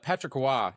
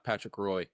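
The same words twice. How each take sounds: First: The surname does not sound the way it's spelled. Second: The surname sounds just the way it's spelled. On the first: The speaker calls it right. "it's uh" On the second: The speaker calls it wrong.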